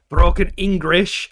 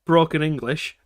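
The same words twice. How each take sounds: First: "Broken English" said slowly, louder, rising at the end; "Broken English" stressed and slow; slow stressed correction. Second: Said in the usual way. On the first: Shown as a demonstration. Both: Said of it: "Let's get that right".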